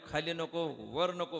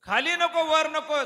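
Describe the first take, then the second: First: Said in the usual way. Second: High, loud mock of the demon's terms; loud mimicking. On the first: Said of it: "मग कुठं आहे, मांडीवर". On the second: God repeats the demon's conditions, loud and mocking. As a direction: throw his own conditions back loudly. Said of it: "कुठं आहे तू, मांडीवर आहे".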